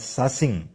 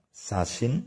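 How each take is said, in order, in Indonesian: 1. Kata ini berakhir dengan bunyi ng. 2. Kata ini berakhir dengan bunyi n.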